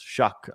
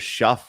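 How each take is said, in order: First: The name ends with a k sound. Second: The name ends with an f sound. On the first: The speaker calls it right. "but it's shuck apparently" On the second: The speaker calls it wrong. "it looks like it's either shuff"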